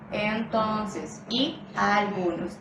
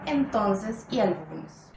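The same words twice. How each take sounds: First: The vowels before the stress are lengthened. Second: The vowels before the stress are short. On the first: "se suelen alargar las vocales pretónicas" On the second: "en lugar de"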